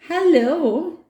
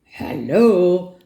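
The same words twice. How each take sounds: First: High, rising hello; high-pitched questioning greeting; hesitant child's reply. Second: Louder, gruff bear greeting; big gruff animal voice; gruff, grisly voice. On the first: Acted. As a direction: answer a strange creature uncertainly. Nora answers the gruff stranger. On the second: A narrator's reading. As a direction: greet like a grizzly old bear. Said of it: "says a gruff, grisly voice".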